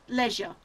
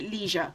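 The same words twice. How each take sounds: First: The word is said the British way. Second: The word is said the American way.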